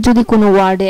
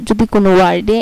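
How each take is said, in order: Both takes have the same delivery.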